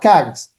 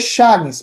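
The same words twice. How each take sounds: First: The word begins with a k sound. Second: The word begins with an sh sound. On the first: This is how the word is actually spoken. The speaker calls it right. "mas se fala" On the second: This is how the word looks when read from its spelling. The speaker calls it wrong. "Se lê"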